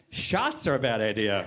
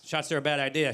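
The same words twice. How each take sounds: First: Slow, low sarcastic repeat; mocking echo. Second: Said in the usual way. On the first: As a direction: throw the words back slowly, pitched down. Wife repeats his words back mockingly.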